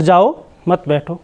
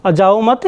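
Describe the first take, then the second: First: "जाओ", a pause, then "मत बैठो"; pause after जाओ. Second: "जाओ मत" joined as one phrase, rising on "मत"; no break between "जाओ" and "मत"; pause after मत. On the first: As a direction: set "जाओ" apart, keep "मत बैठो" together. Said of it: "सिर्फ एक क्वेश्चन मार्क का फ़र्क". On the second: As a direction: run "जाओ मत" together and leave it lifted. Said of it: "वैसे ही". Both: Shown as a demonstration.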